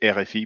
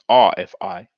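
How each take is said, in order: First: The letters are named with French letter names. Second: The letters are named with English letter names. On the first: "We call it" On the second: "in English you will pronounce it"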